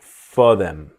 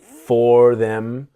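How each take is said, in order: First: The word them is reduced to em. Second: The word them is said in full.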